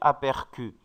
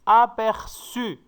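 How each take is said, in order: First: The middle consonant sounds like a k. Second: The middle consonant sounds like an s. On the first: The speaker calls it wrong. "pour ne pas prononcer apercu" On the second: The speaker calls it right. "on doit mettre une cédille ici"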